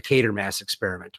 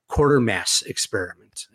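First: Quatermass said as Kway-ter-mass; self-correct to a Kway sound in Quatermass; corrected name. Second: Quatermass said as Kwor-ter-mass; first try at the name. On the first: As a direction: Quatermass fixed to rhyme with Kate. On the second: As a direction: start Quatermass like quarter. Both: Real, not acted. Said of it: "the Quatermass Experiment".

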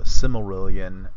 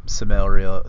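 First: Silmarillion said slowly, each syllable placed; careful correction. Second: Silmarillion rushed and stumbled, syllables swallowed; garbled Silmarillion. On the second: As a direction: trip over Silmarillion, slurring it into four syllables. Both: Real, not acted. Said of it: "I can never say that".

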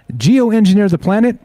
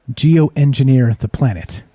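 First: Said in the usual way. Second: Slow and lower, each word weighed; slow repeat. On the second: Shown as a demonstration. Streamer repeating the headline to question it, slow and skeptical. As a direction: turn the phrase over slowly, skeptical. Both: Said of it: "What does that mean?".

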